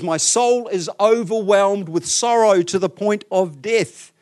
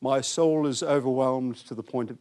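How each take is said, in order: First: Slow, loud, heavy anguish; acted grief, slow and pressing; deep grief. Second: Lifeless pious scripture reading; mock-pious, toneless recital; pious monotone. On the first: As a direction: weigh down every word with overwhelming sorrow. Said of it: "this is deep, deep grief". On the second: Shown as a demonstration. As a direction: read it like a monotone audio Bible. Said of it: "pious sort of voice".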